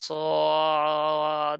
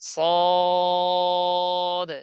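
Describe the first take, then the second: First: The sound wavers, with pressure in the throat. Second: The sound stays level, without throat pressure. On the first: The speaker calls it wrong. "এরকম যেন আওয়াজ নড়াচড়া না হয় যে সদ এরকম গলায় চাপ না হয়" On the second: The speaker calls it right. "বরাবর উপর নিচ"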